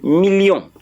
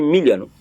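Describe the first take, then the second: First: It is said with a French pronunciation. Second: It is said with an English pronunciation. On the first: "French is saying million" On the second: "When you say million"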